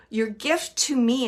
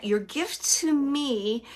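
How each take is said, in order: First: Said in the usual way. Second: "Your gift to me" drawn out slowly; spoken slowly and earnestly; slow, deliberate quote. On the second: Shown as a demonstration. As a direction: let each word of "Your gift to me" land, slowly. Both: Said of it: "and he's saying it like that".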